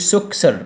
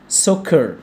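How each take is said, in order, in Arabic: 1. يأتي صوت S إضافي بعد K. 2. لا يأتي صوت S بعد K.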